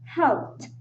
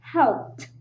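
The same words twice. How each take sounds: The two takes are said the same way.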